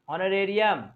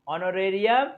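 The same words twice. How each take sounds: Both takes have the same delivery.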